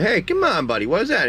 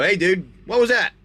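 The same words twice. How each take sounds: First: High start dropping to usual pitch; playful, softened reproach to a buddy; gentler chiding. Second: Higher-pitched mock scolding of a pet; playful reprimand after a smack; sharp rebuke. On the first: Pretend. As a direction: coax a pet with a mild telling-off. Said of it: "You don't smack him hard. It's more like a". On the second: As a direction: call out a pretend telling-off. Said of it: "smack him across the back of the head".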